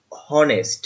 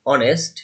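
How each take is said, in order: First: "হনেস্ট" with the h sounded; mistaken pronunciation. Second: "অনেস্ট" with silent h; corrected pronunciation. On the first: Real, not acted. Teacher slips on the example word, mispronouncing it with an h. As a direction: say "হনেস্ট" starting on an audible h. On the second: Shown as a demonstration. Teacher corrects the example word, pronouncing it without h. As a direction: start "অনেস্ট" straight on the vowel, no h. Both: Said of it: "অনেস্ট, sorry".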